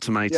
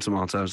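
First: It is said with an American pronunciation. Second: It is said with a British pronunciation.

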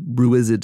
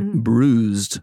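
First: The word is said with a mimicked, odd pronunciation. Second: The word is said in a plain, ordinary way.

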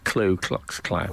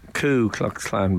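First: The first word is said as 'klu' with an L. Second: The first word is said as 'ku' without an L. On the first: The speaker calls it wrong. "I often hear it said as Klu Klux Klan" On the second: The speaker calls it right. "Ku Klux Klan, by the way"

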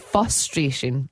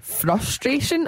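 First: No r sound follows the f. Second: An r sound follows the f. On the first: The speaker calls it wrong. "I've been saying frustration" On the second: The speaker calls it right. "It was actually frustration"

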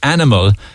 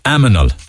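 First: The n sound comes before the m sound. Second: The m sound comes before the n sound. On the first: The speaker calls it right. "instead of animal" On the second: The speaker calls it wrong. "one that I use all of the time"

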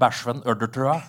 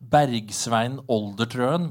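First: The name is said in local Tynset dialect form. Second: The name is said in standard Norwegian form.

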